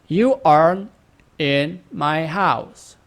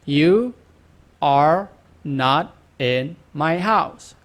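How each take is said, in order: First: Are and not are joined as aren't. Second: Are and not are said as two words.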